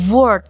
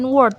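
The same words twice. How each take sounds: First: The word begins with a V sound. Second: The word begins with an English-like W sound. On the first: The speaker calls it right. "tapi word" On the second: The speaker calls it wrong. "tapi bacanya bukan word"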